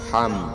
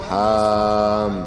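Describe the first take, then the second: First: The vowel in ham is kept short. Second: The vowel in ham is drawn out long. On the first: The speaker calls it right. "harus pendek" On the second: The speaker calls it wrong. "dibaca panjang"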